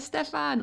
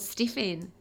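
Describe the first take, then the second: First: The first vowel sounds like the vowel in 'bed'. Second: The first vowel sounds like the vowel in 'bit'.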